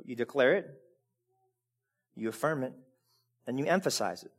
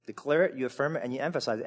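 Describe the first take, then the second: First: Each phrase set apart slowly, softly; a slow, soft, deliberate list; slow, spaced out. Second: "Declare it, you affirm it, and you emphasize it" rattled off fast; quick run-through. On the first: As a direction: lay down declare, affirm and emphasize one by one. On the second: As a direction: sweep through the three verbs quickly. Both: Shown as a demonstration. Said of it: "how many times is it said?".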